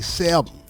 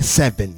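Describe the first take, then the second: First: The consonants are softened and flowing. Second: The consonants are hard and crisp. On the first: "we say seven. We soften the consonants" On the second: "We don't say seven"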